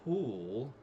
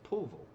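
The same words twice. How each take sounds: First: The first syllable sounds like the word pool. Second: The first syllable is shortened and reduced. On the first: It is read the way it is spelled. The speaker calls it wrong. "you pronounce it the way it's spelled, it would be Poolville, like a swimming pool" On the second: This is how local people say it. The speaker calls it right. "everybody here in Texas calls it Poolville"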